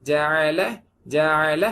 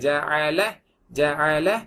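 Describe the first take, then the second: The two takes are said the same way.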